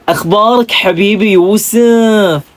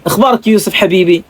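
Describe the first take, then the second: First: Slow, sweet Hasawi lilt with Yusuf drawn out; smooth Hasawi accent. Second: Said in the usual way. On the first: Shown as a demonstration. Vlogger showing viewers the Hasawi accent, smooth and slow. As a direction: draw it out like a sweet-talking Hasawi. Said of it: "napaka-smooth at napakabagal magsalita".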